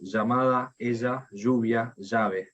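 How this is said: It is said with an Argentine accent.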